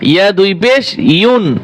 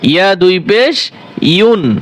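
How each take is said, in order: No difference in how they are said.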